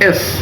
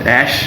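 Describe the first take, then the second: First: The letter is said like 'ess'. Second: The letter is said like 'ash'. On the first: The speaker calls it right. "এটা অ্যাশ না হবে এস" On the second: The speaker calls it wrong. "অনেকে এটা বলে অ্যাশ অ্যাশ"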